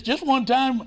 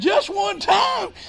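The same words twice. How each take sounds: First: Said in the usual way. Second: High, slow, shouted disbelief; pitched-up, drawn-out stunned question; astonished echo. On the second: Retold or imitated. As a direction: throw the words back in amazement. Echoing the preacher in disbelief.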